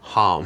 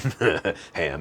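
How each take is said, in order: First: The vowel is short like in 'hum'. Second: The vowel is open like in 'ham'. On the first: The speaker calls it right. "the mantra sound for the throat chakra is hum" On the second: The speaker calls it wrong. "not ham"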